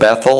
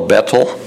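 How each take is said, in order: First: The middle consonant is a 'th' sound. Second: The middle consonant is a plain 't' sound.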